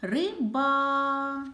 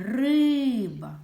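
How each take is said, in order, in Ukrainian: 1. Останній голосний звук a тягнеться довше. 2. Голосний звук y тягнеться довше. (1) "звук «а»" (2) "звук «и»"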